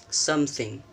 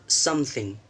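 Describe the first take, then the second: No difference in how they are said.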